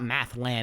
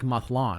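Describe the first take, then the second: First: The last syllable sounds like 'land'. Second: The last syllable sounds like 'lon'. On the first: The speaker calls it wrong. "It's not Mathland" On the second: The speaker calls it right. "It's like Mathlon"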